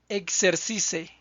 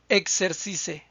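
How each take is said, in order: Both takes have the same delivery.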